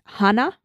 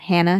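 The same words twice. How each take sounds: First: The name is said without an American pronunciation. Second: The name is said with an American pronunciation.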